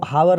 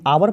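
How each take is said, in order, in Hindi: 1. यह शब्द h ध्वनि से शुरू होता है। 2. यह शब्द सीधे स्वर से शुरू होता है। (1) "हावर को हावर नहीं" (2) "आवर पढ़ते हैं"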